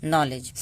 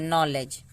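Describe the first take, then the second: Both takes have the same delivery.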